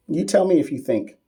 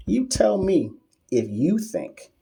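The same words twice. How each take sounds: First: Said in the usual way. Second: Higher, slow, put-on challenge voice; mock drawn-out challenge. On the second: Shown as a demonstration. Streamer throws the question back at a trolling doctor, slow mock challenge. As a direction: stretch each word to throw it back. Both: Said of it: "repeat said slower".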